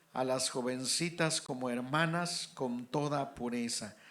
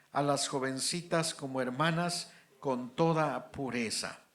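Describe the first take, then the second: No difference in how they are said.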